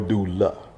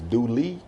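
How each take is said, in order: First: The name ends with an 'uh' vowel sound. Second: The name ends with an 'ee' vowel sound. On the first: "or doula, which is the A" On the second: "in the hills you go further up it's douli"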